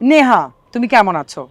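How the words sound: It is spoken in a low pitch register. "প্রথমটা আমি বলেছি উদারা থেকে"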